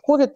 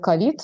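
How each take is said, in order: First: It is pronounced the way English speakers say it. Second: It is pronounced the way Russians say it. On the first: This is how it is said in English-speaking countries. "в англоговорящих странах говорят ковид" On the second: This is how it is said in Russia. "в России говорят ковид"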